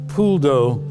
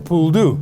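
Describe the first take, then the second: First: It is said with a standard French pronunciation. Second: It is said with a local Cajun pronunciation. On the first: The speaker calls it right. "is how it's pronounced correctly in French" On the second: The speaker calls it wrong. "has been bastardized to become a poule d'eau"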